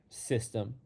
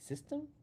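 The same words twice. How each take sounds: First: It falls firmly and emphatically. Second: It rises like a question.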